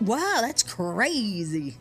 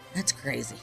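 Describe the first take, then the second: First: It sounds excited and sincere. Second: It sounds flat and unconvinced.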